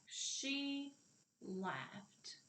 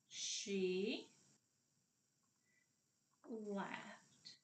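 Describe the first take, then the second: First: Said in the usual way. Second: "She", then a long pause, then "laughed"; teacher separating "She ... laughed" for counting; word by word. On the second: Shown as a demonstration. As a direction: say "She laughed" as two isolated, drawn-out words. Sentence split up for counting words.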